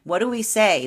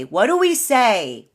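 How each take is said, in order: First: Said in the usual way. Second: "What do we say" drawn out, louder and slower; slow emphatic question. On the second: Shown as a demonstration. Rallying viewers against the doubting past, slow and emphatic. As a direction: lean on each word of "What do we say".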